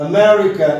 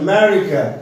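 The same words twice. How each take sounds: No difference in how they are said.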